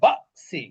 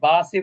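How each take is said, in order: First: The voice is briefly stopped with a push mid-word. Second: The word flows smoothly without any stop. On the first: The speaker calls it right. "ধাক্কা দিতে হবে" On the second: The speaker calls it wrong. "বাসি বাসি বললে কিন্তু হলো না।"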